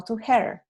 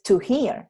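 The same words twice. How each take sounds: First: "hear" said like "her"; the mistaken "hear", vowel like "her"; wrong vowel. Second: "hear" with a clear long ee sound; right vowel. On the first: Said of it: "es to hear". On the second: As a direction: say "hear" like "heer". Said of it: "no to hear". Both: Shown as a demonstration.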